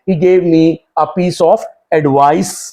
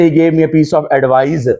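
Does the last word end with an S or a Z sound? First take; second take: S; Z. First: The last word ends with an s sound. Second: The last word ends with a z sound. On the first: The speaker calls it right. "एडवाइस सीन की जो sound वाला word noun होगा" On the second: The speaker calls it wrong. "आप ये नहीं कह सकते"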